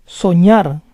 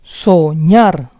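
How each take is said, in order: First: Said in the usual way. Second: Soñar split as so-ÑAR; syllable by syllable. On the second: Shown as a demonstration. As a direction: say Soñar in parts, stressing ÑAR. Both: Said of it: "the stress is on the last syllable".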